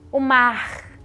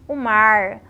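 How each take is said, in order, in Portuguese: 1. O R final é forte e vibrante. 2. O R final é retroflexo, como no inglês americano. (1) "o R múltiplo dos cariocas" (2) "o R rotativo do interior do Sudeste e dos norte-americanos"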